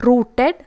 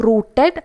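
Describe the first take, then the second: Both takes have the same delivery.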